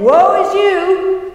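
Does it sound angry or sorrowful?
angry. It sounds angry and condemning.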